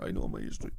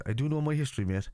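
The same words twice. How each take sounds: First: Very low mock voice; mocking echo. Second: Higher-pitched mock protest; mimicking a chatter. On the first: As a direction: drop right down to parrot the chatter's claim. Mockingly echoes the chatter's claim. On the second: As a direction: read the chatter's claim back, pitched up. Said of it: "let me see what he says".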